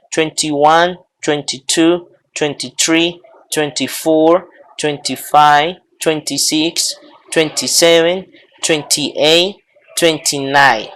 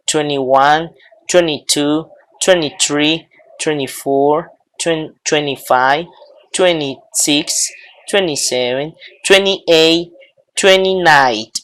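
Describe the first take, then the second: First: "twenty" with its middle t sounded in each number. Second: "twenty" said as "twenny" in each number; twenty without T. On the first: Teacher drilling the twenties, every "twenty" with full t. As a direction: count twenty-one to twenty-nine saying twen-tee. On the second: Teacher drilling the other accepted form, every "twenty" as twenny. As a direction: count twenty-one to twenty-nine dropping the middle t. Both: Shown as a demonstration. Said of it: "O pueden pronunciarlo".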